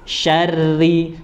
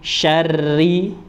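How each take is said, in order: No difference in how they are said.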